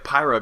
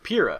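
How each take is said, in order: First: The first syllable sounds like the start of pyro. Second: The first syllable does not sound like pyro. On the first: The speaker calls it wrong. "I keep thinking like Pyra because she's like a fiery and you know pyro" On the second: The speaker calls it right. "but Pyrrha"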